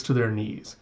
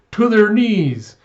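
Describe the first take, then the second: First: Said in the usual way. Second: Loud, high, drawn-out battle cry; fervent rallying shout. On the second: Retold or imitated. Plotter vows to humble Western enemies, rallying shout. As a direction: shout it like a fanatic. Conspirator rallies with repeated slogan.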